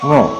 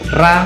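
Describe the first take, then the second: First: The ra is thick, filling the mouth. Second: The ra is thin and light. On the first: The speaker calls it right. "Sebab ro, ro, ya. Mulut kita terpenuhi dengan ro" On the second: The speaker calls it wrong. "Tidak boleh dibaca ra, ra, ra, ran. ... Kalau ran kan ringan"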